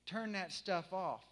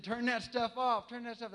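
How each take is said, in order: First: Said in the usual way. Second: Mock shout. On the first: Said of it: "all of the guys around me said". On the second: Retold soldiers yelling at music.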